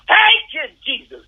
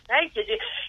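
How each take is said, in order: First: It is screamed loudly. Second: It is said quietly.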